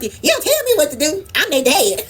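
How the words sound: It is said in a sassy put-on voice.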